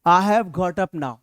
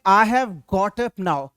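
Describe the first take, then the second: First: It is said quickly and fluently. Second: It is said slowly and carefully.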